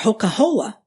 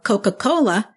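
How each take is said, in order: First: The consonants are made with h sounds. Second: The consonants are made with k sounds. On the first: The speaker calls it wrong. "kids who don't speak with the back of the throat" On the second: The speaker calls it right. "instead of saying cake or Coca-Cola"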